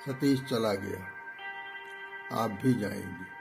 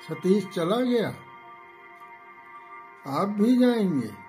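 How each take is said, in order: First: The pitch stays level at the end. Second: The pitch falls at the end. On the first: "सम" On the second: "अवरोही, खेद सूचक"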